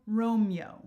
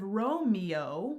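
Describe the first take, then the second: First: "Romeo" compressed to Rom-yo; "Romeo" with the last vowels merged into "yo"; two syllables. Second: Said in the usual way. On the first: Shown as a demonstration. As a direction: say "Romeo" in two beats, ROME-yo. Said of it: "which is two syllables". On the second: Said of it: "which would be three syllables".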